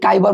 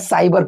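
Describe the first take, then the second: First: The word begins with a K sound. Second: The word begins with an S sound. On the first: The speaker calls it wrong. "आप भी काइबर मत पढ़िएगा" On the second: The speaker calls it right. "साइबर पढ़िएगा"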